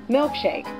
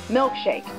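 The two takes are said the same way.

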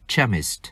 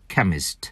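First: The word begins with a ch sound. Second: The word begins with a k sound. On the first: The speaker calls it wrong. "không đọc là chemist" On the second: The speaker calls it right. "phải đọc là chemist"

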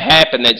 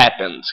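First: The -ed ending is stressed and drawn out. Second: The -ed ending is said lightly and naturally. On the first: The speaker calls it wrong. "Não é happened, não, que pronuncia" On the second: The speaker calls it right. "É happened"

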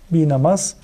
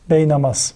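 First: The first syllable has an 'ee' vowel. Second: The first syllable has an 'ay' vowel.

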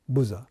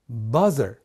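First: The first vowel sounds like "oo". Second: The first vowel sounds like "ah". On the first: The speaker calls it wrong. "なぜか多くの日本人はブザーの時だけですね、うになっちゃうんですね" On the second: The speaker calls it right. "ブザーではなくバザーと発音してみてください"

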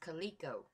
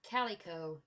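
First: The first syllable does not sound like 'Cali'. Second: The first syllable sounds like 'Cali'. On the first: The speaker calls it wrong. "I had been pronouncing it [name]" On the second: The speaker calls it right. "he pronounces it like Cali, like California"

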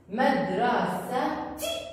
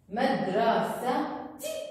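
The two takes are said the same way.

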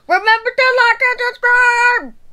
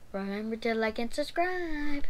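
First: It is said very loudly. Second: It is said more quietly.

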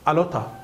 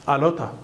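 No difference in how they are said.

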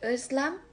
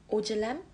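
First: The first vowel is a front rounded ö. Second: The first vowel is a back o. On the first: "Ö'de"

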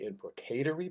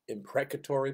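First: It is said with a British pronunciation. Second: It is said with an American pronunciation. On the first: The speaker calls it right. "In England, they say" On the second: The speaker calls it wrong. "we in America would say"

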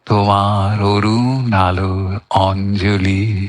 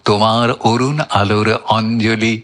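First: The line is recited at a slow tempo. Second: The line is recited at a fast tempo. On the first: "এটা বিলম্বিত হলো।" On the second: "এরপর আসবো দ্রুতলয়।"

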